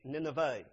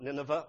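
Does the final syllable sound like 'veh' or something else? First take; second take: veh; something else. First: The final syllable is pronounced as 'veh'. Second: The final syllable is pronounced differently, not 'veh'. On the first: The speaker calls it right. "Please get the pronunciation right. V-E-H" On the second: The speaker calls it wrong. "Not Nineveh or anything else"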